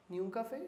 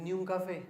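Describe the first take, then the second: First: "Ni un café" with a rise on café; questioning echo. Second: Said in the usual way. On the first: Acted. Echoing the no-coffee rule back, "Ni un café" as a rising question.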